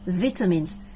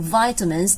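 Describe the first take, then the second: First: It is said with a British pronunciation. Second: It is said with an American pronunciation. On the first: "because this is a British pronunciation" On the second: "that will be in American pronunciation"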